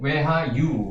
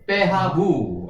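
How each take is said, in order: First: The word is said with w-like consonant sounds. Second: The word is said with b-like consonant sounds. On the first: This is the exact original pronunciation. "이렇게 발음나는 거죠. 정확한 발음이" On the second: This form comes from Latin influence. "이게 라틴어가 들어와가지고 빼, 하, 부"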